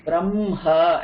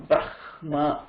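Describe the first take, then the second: First: Brahma as "bramm-haa", slow, m held; M before H. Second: Brahma as "brahh-maa", slow, h sounded first; H before M, as written. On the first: Teacher shows the preferred way, Brahma as "bram-ha". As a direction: say Brahma with m first, then an h. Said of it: "pronounce ma first and then her". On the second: Teacher shows the rejected way, Brahma as "brah-ma". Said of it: "and not Brahma". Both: Shown as a demonstration.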